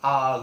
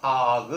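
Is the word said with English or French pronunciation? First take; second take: French; French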